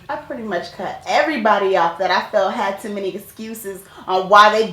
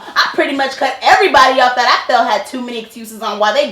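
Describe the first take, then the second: First: It is read in a plain, neutral way. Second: It is read with a sassy attitude.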